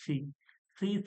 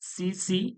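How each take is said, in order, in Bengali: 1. ব্যঞ্জনটি একটি নরম, শ্বাসযুক্ত th ধ্বনি। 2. ব্যঞ্জনটি একটি তীক্ষ্ণ, হিসিং s ধ্বনি। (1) "একটু পাতলা করে" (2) "সিনের মতো আমার যেন আওয়াজটা না আসে। সিন যেন"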